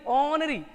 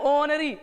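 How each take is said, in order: Both takes have the same delivery.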